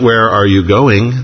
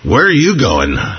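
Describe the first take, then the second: First: It is said in a plain, neutral tone. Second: It is said in an accusing, suspicious tone.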